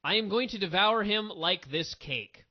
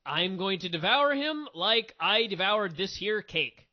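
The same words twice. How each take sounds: First: Flat retold line. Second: Drawn out, slow mocking read of the flubbed line; mock it slowly, word by word; slow sarcastic parody of a botched wrestling promo; slow mock quote. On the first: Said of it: "she goes".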